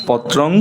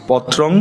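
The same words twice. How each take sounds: No difference in how they are said.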